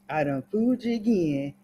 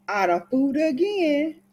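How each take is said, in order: First: Said in the usual way. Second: High, rising singsong on "again"; singsong little victory crow; sly gloating. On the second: Acted. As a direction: lift "again" up high in a teasing boast. Gloating over fooling the grandmother.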